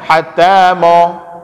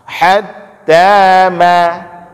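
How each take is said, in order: First: The vowel after m is thick, like o. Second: The vowel after m is a clear, light a. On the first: The speaker calls it wrong. "Jangan dibaca hatta mo" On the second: The speaker calls it right. "baca dengan jelas ma-nya"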